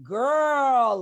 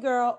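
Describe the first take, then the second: First: It sounds loaded, hinting at something to tell. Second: It sounds light, like a casual greeting. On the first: There is news or gossip to share. "girl, mm-hmm. you'd be like, what? What's it?" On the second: It is just a friendly hello. "hey, girl"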